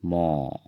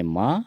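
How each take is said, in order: First: "मो" with a long rounded o; Assamese pronunciation. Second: "म" with an open a vowel; Hindi pronunciation. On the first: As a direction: say "मो" the Assamese way, o instead of a. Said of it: "असमिया में होता है". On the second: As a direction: say "म" the Hindi way, ending in a. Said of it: "Hindi में म". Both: Shown as a demonstration.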